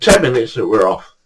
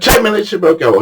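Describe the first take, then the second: First: Said in the usual way. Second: High-pitched promise to leave; mock bargaining. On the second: Victor to his cold fishing mate, insistent bargaining.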